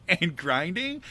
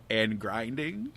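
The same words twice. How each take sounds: First: Said in the usual way. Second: Slow, low, weary drag on grinding; weary drawn-out. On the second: Retold or imitated. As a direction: let grinding sag low and slow, worn out. Dragging out endless grinding.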